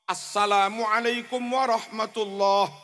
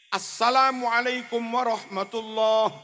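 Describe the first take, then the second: No difference in how they are said.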